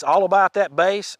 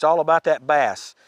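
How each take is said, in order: First: "bass" said like "base"; musical pronunciation. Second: "bass" rhyming with pass; "bass" as in the fish; fish pronunciation. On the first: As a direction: say "bass" with a long a, as in face. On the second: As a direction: say "bass" with a short a, as in cat. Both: Shown as a demonstration. Compares two pronunciations of name.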